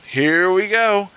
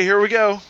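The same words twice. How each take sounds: First: HERE stretched long, higher pitched; drawn-out repeat. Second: Said in the usual way. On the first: Acted. Joke's customer gets ready at the bar, drawn-out repeat. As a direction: draw out "Here we go" slowly.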